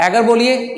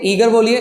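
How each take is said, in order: First: एगर with a short open e; एगर, short first vowel; short e version. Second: ईगर with a long ee; ईगर, long first vowel; long ee version. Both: Shown as a demonstration. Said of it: "आप इसे ईगर भी बोल सकते हैं".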